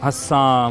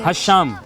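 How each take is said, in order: First: The middle consonant is a plain 's' sound. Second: The middle consonant is an 'sh' sound. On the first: The speaker calls it wrong. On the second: The speaker calls it right.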